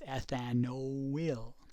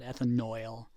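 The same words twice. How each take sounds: First: The ending is said like 'ill'. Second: The ending is said like 'oil'. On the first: The speaker calls it right. "Y L in chemistry is ill" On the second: The speaker calls it wrong. "It's not ethanoyl"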